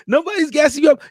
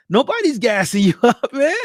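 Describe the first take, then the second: First: Higher and louder, hit YOU; fired-up insistence; emphatic shout. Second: A laugh breaking into the line; amused, laughing it off; laughing insistence. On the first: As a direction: shout it to convince them. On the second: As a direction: chuckle mid-phrase. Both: Real, not acted. Insisting the praise is earned.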